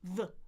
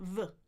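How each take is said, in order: First: The vowel is a relaxed schwa sound. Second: The vowel is a relaxed schwa sound.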